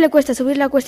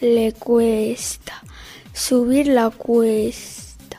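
First: It is spoken at a fast pace. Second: It is spoken at a slow pace. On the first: "Velocidad rápida"

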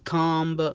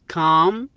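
First: A b sound is heard at the end. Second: The word ends without a b sound. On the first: The speaker calls it wrong. "ولا كامب" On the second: The speaker calls it right. "تنطق بحرف سايلنت البي"

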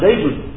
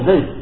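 First: The word ends with the full 'un' ending. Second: The word ends abruptly on the 'd' sound. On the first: "bukan Zaidun" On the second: "dia hanya mengatakan yaqumu Zaid"

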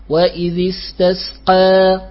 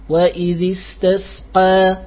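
No difference in how they are said.

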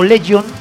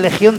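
First: The name is pronounced with English sounds. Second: The name is pronounced with Spanish sounds. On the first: The band sings in English. The speaker calls it wrong. "porque siempre como cantan en inglés, lo pronuncio como Legion" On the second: The speaker calls it right. "que realmente sería Legión DC"

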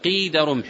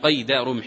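First: The first word has the vowel 'i' after q. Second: The first word has the vowel 'a' after q. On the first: The speaker calls it right. "وإنما يقال قيد رمح، يعني قدر رمح" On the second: The speaker calls it wrong. "وأما قيد بالفتح لا يطلق، لا يقال هنا قيد رمح"

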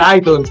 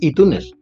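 First: iTunes is pronounced with English sounds. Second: iTunes is pronounced with Spanish sounds. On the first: This is how the other person says it. "tú dices iTunes, ... tú eres muy anglosajona" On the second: This is how the speaker says it. "pero yo digo Zahara de los Itunes"

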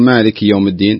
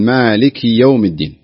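First: The kasra vowel on the kaf is weak. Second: The kasra vowel on the kaf is clear. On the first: The speaker calls it wrong. "يعني ما تقول مالك يوم الدين" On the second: The speaker calls it right. "أنت بالكسرة اكسر كويس ... لا قل مالك يوم الدين"

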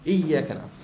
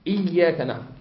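First: The doubled consonant is held with moderate length. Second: The same.

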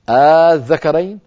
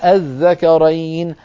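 First: The opening is a long drawn-out vowel. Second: The opening has a sharp, full glottal stop. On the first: The speaker calls it right. "الطريقة الأولى أبدلوها أليفا" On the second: The speaker calls it wrong. "ولم يقولوا أبدا ... بهمزة صريحة نقية محققة"

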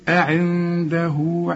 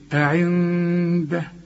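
First: The final h carries a long u vowel. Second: The word ends on a bare h sound. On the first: The reading continues into the next word. "علشان عند الوصل تقول إيه" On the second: The reader stops after this word. "إنما إذا وقفت تقول إيه"

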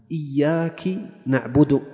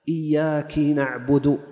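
No difference in how they are said.

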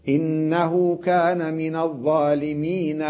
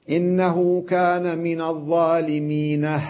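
No difference in how they are said.

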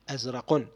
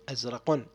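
No difference in how they are said.

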